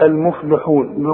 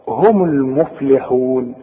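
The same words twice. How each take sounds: First: "المفلحون" with the lam rounded, "almuflu"; wrong, lam with damma. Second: "هم المفلحون" slow, lam kept in "muflihun"; correct, lam with kasra. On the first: Retold or imitated. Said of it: "يقول لك". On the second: Shown as a demonstration. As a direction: make the kasra on the lam clear. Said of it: "بين اللام إنها مكسورة".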